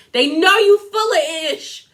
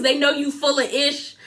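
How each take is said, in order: First: Punchy, raised-pitch call-out on "know you full of ish"; emphatic repeat. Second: Said in the usual way. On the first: Retold or imitated. Emphatic repeat, addressed to Lisa.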